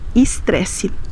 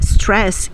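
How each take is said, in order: First: It starts with an added vowel before s. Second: It starts directly with the s sound. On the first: "Nós vamos pronunciar estresse" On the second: "como é o caso de stress em inglês"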